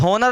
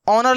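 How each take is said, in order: First: The word begins with an h sound. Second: The word begins with a vowel sound. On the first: The speaker calls it wrong. "हॉनर लिखा हुआ नहीं है" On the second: The speaker calls it right. "ऑनर लिखा हुआ है"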